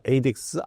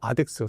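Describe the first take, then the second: First: The word begins with an 'ay' sound. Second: The word begins with an 'ah' sound. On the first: "발음이 이제 두 가지입니다" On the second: "근데 나는 아덱스라고 하겠습니다"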